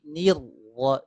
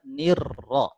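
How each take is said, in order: First: The doubled r is trilled only faintly. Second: The doubled r is trilled strongly and clearly. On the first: The speaker calls it right. "getarnya harus samar" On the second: The speaker calls it wrong. "tidak kita baca"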